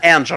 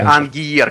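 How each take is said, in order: First: It begins with an 'enj' sound. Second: It begins with an 'ang' sound. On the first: The speaker calls it right. "как же правильно произносится твой ник? ... именно Энджер" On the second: The speaker calls it wrong. "и не Ангиер"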